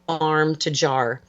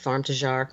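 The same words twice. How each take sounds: First: The phrase is said at a normal, unhurried pace. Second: The phrase is run together quickly, French-sounding.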